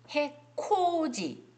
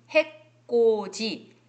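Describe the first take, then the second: First: 해코지 said very slowly with an airy, aspirated ㅋ; aspirated 'k' pronunciation. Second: 해코지 said slowly as [해꼬지], tense unaspirated kk; tense 'kk' pronunciation. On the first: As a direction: stretch out 코 in 해코지, higher. (해코지의 ㅋ을 거센소리로 또렷하고 길게) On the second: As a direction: stretch 해코지 with a hard ㄲ in the middle. (해코지를 [해꼬지]로 된소리 내어 천천히) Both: Shown as a demonstration. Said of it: "일부러 코자니까 코를 가리킬 때 그렇게 제가 발음을 했는데".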